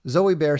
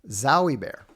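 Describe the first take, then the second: First: The name's first vowel sounds like 'oh'. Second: The name's first vowel sounds like 'ow'. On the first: The speaker calls it wrong. "I said it wrong" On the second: The speaker calls it right. "like Wowie"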